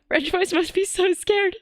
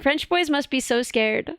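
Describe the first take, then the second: First: Higher, put-on frightened voice; mock scared squeak. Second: Said in the usual way. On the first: Shown as a demonstration. Repeating her own line to chat, now in a higher mock-frightened voice.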